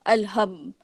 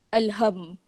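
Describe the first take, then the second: No difference in how they are said.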